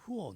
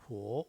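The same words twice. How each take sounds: First: The pitch of the syllable falls. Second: The pitch of the syllable rises. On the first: "내려오죠" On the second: "올라가고"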